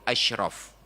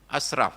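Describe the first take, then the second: First: The middle consonant is an sh sound. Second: The middle consonant is a plain s sound. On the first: The most noble. The speaker calls it right. "Padahal Nabi itu asyraf" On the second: The most wasteful. The speaker calls it wrong. "Asraf bukan Nabi"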